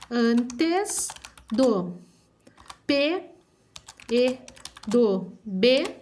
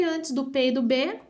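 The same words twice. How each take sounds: First: Word by word, with long pauses; slow dictation. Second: Said in the usual way. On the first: Shown as a demonstration. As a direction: dictate for children writing it down. (ditado pausado, palavra por palavra)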